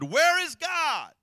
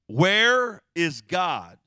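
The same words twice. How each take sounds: First: It is asked angrily, almost shouting. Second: It is asked sternly in a loud voice.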